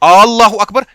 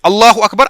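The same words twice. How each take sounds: First: The opening vowel of Allah is drawn out. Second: The opening vowel of Allah is short. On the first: It asks whether God is the greatest. The speaker calls it wrong. "उसको लंबा" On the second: It states that God is the greatest. The speaker calls it right. "अल्लाह सबसे बड़ा है"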